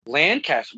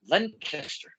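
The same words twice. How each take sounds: First: Lancaster as an open "LAN-cast-er"; Lancaster relearned as "LAN-caster"; corrected pronunciation. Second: Lancaster squeezed to "LENK-ester"; Lancaster as "LEN-kester"; mistaken local pronunciation. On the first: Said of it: "I'm correcting myself here". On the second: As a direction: say Lancaster with a short "len" and a weak, run-together ending. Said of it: "I thought it was pronounced". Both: Shown as a demonstration.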